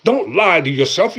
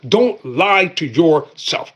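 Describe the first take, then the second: First: Said in the usual way. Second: Slow emphatic warning; slow, deliberate repeat. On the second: Shown as a demonstration. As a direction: stretch out Don't lie to yourself, every word slow.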